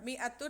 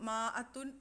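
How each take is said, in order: First: The first syllable has an 'i' vowel. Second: The first syllable has a long 'aa' vowel. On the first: This is how the word is actually pronounced. "അലിഫ് പ്രൊനൗൺസ് ചെയ്യില്ല" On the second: This is how the word is spelled. "മാ അത്തുൻ എന്നുള്ള രീതിയിലാണ് എഴുതുക"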